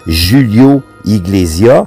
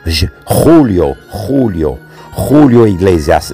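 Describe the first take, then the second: First: The name is said with a plain French accent. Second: The name is said with a Spanish-sounding accent. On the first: It does not sound exotic. "ça sonne pas trop exotique" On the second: It sounds exotic. "J'ai de l'air plus espagnol quand je dis ça comme ça"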